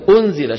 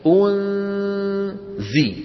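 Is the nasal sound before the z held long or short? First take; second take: short; long. First: The nasal sound before the z is short. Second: The nasal sound before the z is held long. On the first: This is everyday speech, not recitation. "بالعامية بكلامهم اليومي ليس بالقرآن" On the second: This is recitation of the Quran. "تطويل الغنة"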